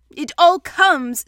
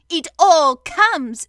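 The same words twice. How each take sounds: First: Loud, higher, slow complaint; cross. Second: Slow, loud, stern retort. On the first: Pooh blaming the front door, cross. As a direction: grumble crossly, leaning on each word. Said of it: "said Pooh crossly". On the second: Rabbit scolding stuck Pooh, stern. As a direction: lay down each word sternly. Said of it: "said Rabbit sternly". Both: A narrator's reading.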